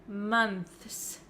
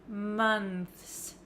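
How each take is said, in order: Both takes have the same delivery.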